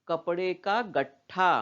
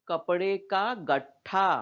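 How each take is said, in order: The two takes are said the same way.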